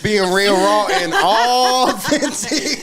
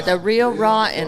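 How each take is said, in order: First: Slow, laughing through authentic. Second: Slow, drawn-out put-on voice. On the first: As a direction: draw it out with a laugh. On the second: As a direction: drag out real raw like a show host. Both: Shown as a demonstration. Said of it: "Let's put that voice in there".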